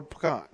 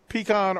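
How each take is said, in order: First: "pecan" as puh-KAHN, weak first syllable; pronunciation puh-KAHN. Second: "pecan" as PEE-kahn, long ee; pronunciation PEE-kahn. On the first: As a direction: lean on KAHN in "pecan" after a short puh. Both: Shown as a demonstration. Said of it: "Is that a Southern thing".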